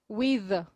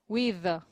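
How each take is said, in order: The two takes are said the same way.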